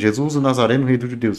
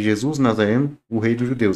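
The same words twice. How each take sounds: First: The phrase is run together without a pause. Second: A pause comes before "o rei dos judeus". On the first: The speaker calls it wrong. "Fala de maneira corrida, fica estranho" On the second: The speaker calls it right. "se colocar uma pausa"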